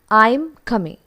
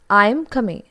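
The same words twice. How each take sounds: The two takes are said the same way.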